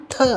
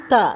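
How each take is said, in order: First: Breathy dental "tha" with a puff on த; த as a heavy "tha"; aspirated த. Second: Plain dental "ta" with little air on த; த without a puff; unaspirated த. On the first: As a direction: push extra air out on த. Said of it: "மகாபிரான்". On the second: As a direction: say த as an easy "ta". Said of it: "அல்ப பிரான்". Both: Shown as a demonstration.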